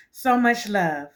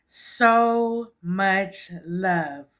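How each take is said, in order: First: Said in the usual way. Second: Stretched very slowly, every word held; thanking her viewers, drawn out very slowly. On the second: Real, not acted. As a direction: draw each word out long and savoring.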